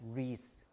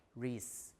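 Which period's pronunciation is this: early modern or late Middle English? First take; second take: late Middle English; late Middle English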